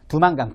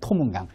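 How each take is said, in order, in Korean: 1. 이 이름은 부드럽고 거세지 않은 d 소리로 시작합니다. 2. 이 이름은 세고 거센 t 소리로 시작합니다.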